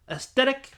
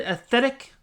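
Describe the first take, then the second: First: "aesthetic" with S-T replacing the TH, high and questioning; mispronunciation attempt. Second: "aesthetic" with a TH middle, high and questioning; trying a pronunciation. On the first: Vlogger struggling to pronounce words, "aesthetic" as a questioning "uh-STET-ick". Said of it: "a hard time pronouncing my words". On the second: Vlogger testing how you say it, "aesthetic" with a clear TH. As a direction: say "aesthetic" as "es-THET-ick", rising high. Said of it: "Is that how you say it?". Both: Real, not acted.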